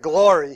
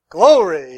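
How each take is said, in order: First: The first vowel is a plain 'or' sound. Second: The first vowel sounds like the word 'glow'. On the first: This is how the speaker normally says it. "like I did in Philadelphia" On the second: This is how another man said it. "He put a glow in there"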